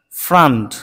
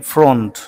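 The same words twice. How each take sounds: First: ফ্রন্ট with an open a, like frant; correct ফ্রন্ট. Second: ফ্রন্ট said with an o vowel; the mistaken ফ্রন্ট, rounded o; wrong ফ্রন্ট. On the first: Teacher giving the correct ফ্রন্ট. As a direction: say ফ্রন্ট with a short a. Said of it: "আসলে ফ্রন্ট নয়". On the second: Teacher showing the wrong ফ্রন্ট. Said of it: "এটিও আমরা ভুল করি". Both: Shown as a demonstration.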